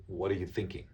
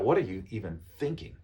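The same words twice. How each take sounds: First: Said in the usual way. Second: Mildly confrontational questioning; understated accusing question; too strong. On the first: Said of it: "it's a very friendly way to say". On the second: Shown as a demonstration. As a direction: ask it a touch too bluntly, as if challenging. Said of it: "too strong, right?".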